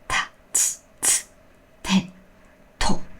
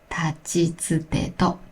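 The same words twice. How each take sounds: First: The consonants have a strong puff of air. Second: The consonants have little puff of air. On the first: The speaker calls it wrong. "don't aspirate too much ... So it's not like tachitsute to" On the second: The speaker calls it right. "but it's tachitsute to"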